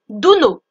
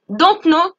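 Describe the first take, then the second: First: "Don't know" is blended into "dunno". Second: "Don't know" is said as two full words.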